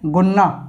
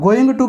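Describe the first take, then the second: First: The words merge into a short reduced form. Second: Both words are said fully and separately.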